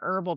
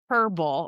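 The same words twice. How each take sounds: First: The word begins directly with the vowel sound. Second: The word begins with an audible h sound. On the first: This form is heard as less prestigious. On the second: This form is heard as more prestigious.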